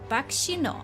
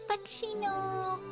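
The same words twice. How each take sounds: First: It is said in his normal voice. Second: It is said in a put-on anime voice.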